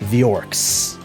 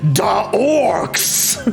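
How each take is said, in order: First: It is said in his normal voice. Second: It is said in a rowdy, hooligan-like orc voice.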